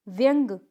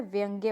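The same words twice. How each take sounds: First: व्यंग ending on g; incorrect pronunciation. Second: व्यंग्य softer, ending in "gya"; correct pronunciation. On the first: Teacher showing a mistake, व्यंग without final ya. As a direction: say व्यंग as vyang. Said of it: "व्यंग कुछ नहीं होता है". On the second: Teacher correcting the class, व्यंग्य with final ya. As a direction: say व्यंग्य as vyang-ye. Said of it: "होता है". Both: Shown as a demonstration.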